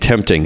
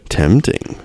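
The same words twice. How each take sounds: First: The word is said flatly, without expression. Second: The word is said with lively, dramatic expression.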